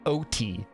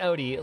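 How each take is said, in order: First: The T is pronounced hard and crisp. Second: The T is softened to a D-like sound. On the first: The speaker calls it wrong. "they pronounce the T so much" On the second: The speaker calls it right. "I want to say it Odie"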